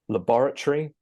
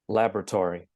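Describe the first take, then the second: First: It is said in a British accent. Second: It is said in an American accent. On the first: "starting with the British version" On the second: "and then the American version"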